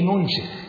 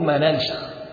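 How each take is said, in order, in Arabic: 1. الحركة الأولى u، والثانية i. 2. الحركة الأولى a، والثانية a. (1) "ابن عامر قال بضم كسر نون سيخ" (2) "الجمهور ما ننسخ"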